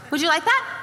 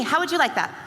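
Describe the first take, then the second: First: "that" lifted into a rising question; "Would you like that" ending up on "that"; stress on that. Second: "you" hit, falling at the end; "How would you like that" leaning on "you"; stress on you. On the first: Speaker to the audience, that stressed. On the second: Speaker to the audience, you stressed. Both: Shown as a demonstration.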